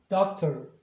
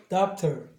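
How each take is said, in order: Both takes have the same delivery.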